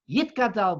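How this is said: It has a t sound after 'yi'.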